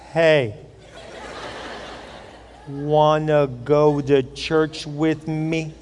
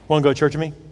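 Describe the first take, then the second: First: It is said slowly. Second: It is said at a normal pace.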